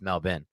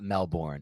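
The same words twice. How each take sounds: First: It is said the way local people say it. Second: It is said the way the spelling suggests. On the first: The speaker has been there. The speaker calls it right. "It's Melbourne" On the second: The speaker has only read the name. The speaker calls it wrong. "who just reads on a piece of paper and would assume it's Melbourne, but it's not Melbourne"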